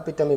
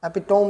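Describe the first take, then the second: First: The word ends with a 'tuh-mee' sound. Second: The word ends with a 'tome' sound. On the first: The speaker calls it right. "અપિટમી બોલીએ છીએ" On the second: The speaker calls it wrong. "એપિટોમ નથી બોલતા"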